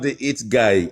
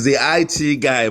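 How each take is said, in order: First: IT is said as the single word 'it'. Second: IT is said as two separate letters. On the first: The speaker calls it wrong. "It is not the it guy" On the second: The speaker calls it right. "It's the I T guy"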